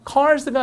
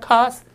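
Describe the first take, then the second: First: "cars" with the R sounded; American R. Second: "cars" with no R and a long vowel; R-less British. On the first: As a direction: say "cars" with a clear r before the s. ('cars'의 R을 살린 미국식 발음) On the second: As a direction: drop the r in "cars" and lengthen the a. ('cars'의 R을 빼고 길게) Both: Shown as a demonstration. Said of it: "이게 없어지고 길어져요".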